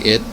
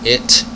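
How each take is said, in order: First: The final t is soft, between t and d. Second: The final t is crisp and clearly released. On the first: "it's a very soft, kind of barely pronounced sound" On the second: "instead of saying it"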